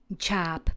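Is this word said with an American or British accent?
American. American accent, with an open 'a'-like vowel. "v americké angličtině"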